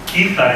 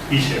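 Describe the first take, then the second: First: The middle consonant is a throaty 'h' sound. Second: The middle consonant is a soft 'sh' sound. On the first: This is the Castilian form of the name. "en castellano" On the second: This is the Valencian form of the name. "que es en valenciano"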